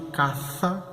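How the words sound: It is said with a Spanish accent. The word sounds different from the word for house. "Porque na Espanha é assim que se pronuncia e é assim que se distingue"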